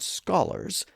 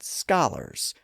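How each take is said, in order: First: The first vowel is a rounded short O. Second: The first vowel is an unrounded short O. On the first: This is the traditional pronunciation. "instead of saying the word scholars" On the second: This is how newly wealthy lower-class speakers said it. "they sometimes unrounded their short O's"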